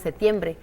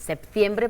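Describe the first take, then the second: First: The p sound before the t is dropped. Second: The p sound before the t is pronounced. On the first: This is how it is said in Spain. "pues en España se dice septiembre" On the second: This is how it is said in Mexico. "que en México sí se pronuncia muy correctamente"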